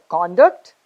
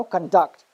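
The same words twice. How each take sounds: First: CONduct, stressed on the first syllable. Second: ConDUCT, stressed on the second syllable. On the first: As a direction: say "conduct" as the noun, punching "con". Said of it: "stress on the first syllable". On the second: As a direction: say "conduct" as the verb, weight on "duct". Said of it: "stress on the second syllable". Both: Shown as a demonstration.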